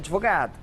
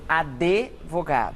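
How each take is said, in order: First: No extra vowel is inserted after the d. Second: An extra vowel is inserted after the d. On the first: The speaker calls it right. "O correto é" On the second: The speaker calls it wrong. "as pessoas acrescentarem vogais. Né? Por exemplo"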